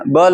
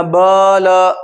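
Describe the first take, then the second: First: ब ल said briskly, both vowels short; short, unstretched ब ल; quick short vowels. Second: ब ल with both vowels stretched long; slow, overlong ब ... ल; wrongly drawn-out vowels. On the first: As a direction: run ब ल together without stretching. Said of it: "बोलो जल्दी से". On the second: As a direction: drag out each vowel in ब ल. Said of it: "तो ये गलत होगा". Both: Shown as a demonstration.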